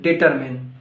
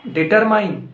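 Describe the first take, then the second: First: "determine" ending in a short MIN; corrected DETERMINE. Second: "Determine" higher, ending like MINE; wrong DETERMINE. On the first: Teacher correcting learners, "determine" said as di-TER-min. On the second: Teacher quizzing learners on "Determine", ending like MINE. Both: Shown as a demonstration. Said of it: "No, it's not determine".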